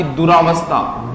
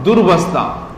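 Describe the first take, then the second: First: Long "raa" in दुरावस्था; दुरावस्था with an extra aa after r; wrong added vowel. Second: No long aa after r in दुर्वस्था; दुर्वस्था, the r kept short; correct short form. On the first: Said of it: "मात्रा लगा दी". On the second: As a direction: say दुर्वस्था as dur-vastha. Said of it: "यहां सिर्फ दूर ही होगा". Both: Shown as a demonstration.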